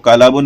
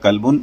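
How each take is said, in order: First: A long vowel is inserted between l and b. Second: No vowel is heard between l and b. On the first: The speaker calls it wrong. "इसको कलाबुन नहीं बोलना है" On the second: The speaker calls it right. "इसको एराब सही से प्रोनाउंस करना है आपको"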